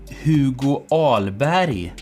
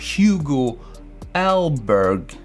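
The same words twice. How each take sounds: First: The name is pronounced the Swedish way. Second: The name is pronounced the English way. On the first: "should I use Swedish pronunciation like" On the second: "or should I go for"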